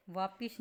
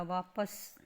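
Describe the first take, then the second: First: वापिस with i in the second syllable; wrong i vowel. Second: वापस with short a in the second syllable; correct short a. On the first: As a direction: say वापिस as vaa-pis. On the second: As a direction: say वापस as vaa-pas. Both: Shown as a demonstration. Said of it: "वापिस नहीं होता".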